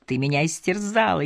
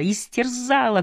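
First: Said in the usual way. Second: Истерзала repeated much higher, cried out and falling; anguished shout. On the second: A narrator's reading. Randall repeating истерзала at Anne, higher and anguished. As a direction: throw истерзала up high like a wounded cry. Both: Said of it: "крикнул Рэндалл".

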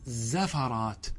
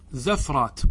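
First: زفرات as "zafaraat", short a after ف; slow, softer "za-fa-raat" for زفرات; fatha on second letter. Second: زفرات as "zafraat", no vowel after ف; sukun on second letter. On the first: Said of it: "والقياس فتحها". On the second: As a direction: say زفرات in two syllables, ف closing the first. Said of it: "فسكن عين زفرات". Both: Shown as a demonstration.

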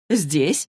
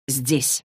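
First: Rising, questioning HERE on "Здесь"; puzzled echo question. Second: Said in the usual way. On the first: A narrator's reading. Dorothea echoes where the cup is, puzzled.

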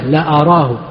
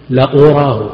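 First: "لا أراه" with an a on the hamza, la-araahu; fatha on hamza. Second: "لأراه" with an u on the hamza, la-uraahu; damma on hamza. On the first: Teacher showing al-Nawawi's vowelling, "لا أراه" said la-araahu with fatha. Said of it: "ضبطه بالفتح". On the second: Teacher showing al-Qurtubi's vowelling, "لأراه" said la-uraahu with damma. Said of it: "بضم الهمزة". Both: Shown as a demonstration.

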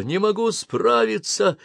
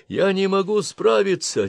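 First: Higher, slower desperate repeat; panicked shout. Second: High, panicked cry; panicked shout. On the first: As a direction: plead it to yourself, slowly. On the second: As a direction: lose control in your voice. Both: Acted. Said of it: "кричал пилот".

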